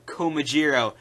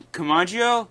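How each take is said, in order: First: "Komajiro" with a "jee-ro" ending; dub pronunciation. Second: "Komagio" said with a "ma-jio" ending; original pronunciation. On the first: Fan giving the dub's name, "Komajiro" ending in "jee-ro". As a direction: say "Komajiro", ending in a clear "jiro". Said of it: "He's called Komajiro". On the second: Fan citing the name the dub dropped, "Komagio" ending in "jio". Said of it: "he isn't called that". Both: Shown as a demonstration.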